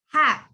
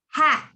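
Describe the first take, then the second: The two takes are said the same way.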